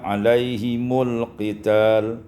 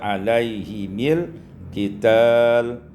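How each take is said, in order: First: The mim is followed by a u vowel. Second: The mim is followed by an i vowel.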